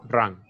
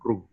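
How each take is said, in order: First: The word is said with an English pronunciation. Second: The word is said with a Spanish pronunciation.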